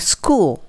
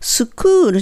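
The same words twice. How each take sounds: First: The s joins the k with no vowel. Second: A vowel is inserted after the s sound. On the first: The speaker calls it right. "キュッとチュッとくっつけます" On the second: The speaker calls it wrong. "スのうっていうのを入れないので"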